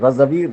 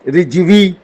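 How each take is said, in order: First: The first vowel is an 'a' sound. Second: The first vowel is an 'i' sound. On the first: The speaker calls it right. "मेरा नाम रजवी है" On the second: The speaker calls it wrong. "रिजवी नहीं है"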